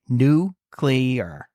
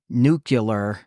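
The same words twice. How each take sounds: First: The word ends sounding like 'clear'. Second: The middle sounds like 'cue', ending 'cue-lar'. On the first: The speaker calls it right. "It's like clear at the end of the word" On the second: The speaker calls it wrong. "that drives me nuts when people say it like that"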